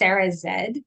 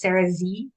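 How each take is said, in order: First: The last letter is said as zed. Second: The last letter is said as zee.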